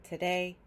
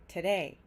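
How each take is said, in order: No difference in how they are said.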